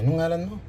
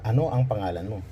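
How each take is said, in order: First: The words merge into a shortened, linked form. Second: Every word is said separately and in full. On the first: This is the everyday spoken way of asking. "everyday communication" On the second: This is the formal way of asking. "kapag formal"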